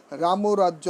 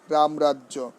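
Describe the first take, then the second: First: রামরাজ্য as ramo-rajjo, extra o after m; wrong pronunciation. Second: রামরাজ্য as ram-rajjo, no linking o; correct pronunciation. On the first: Teacher showing students what to avoid, wrong pronunciation. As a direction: say রামরাজ্য with an added middle o. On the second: Teacher correcting the exception for students, correct pronunciation. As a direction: say রামরাজ্য with m straight into r. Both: Shown as a demonstration. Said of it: "নয়".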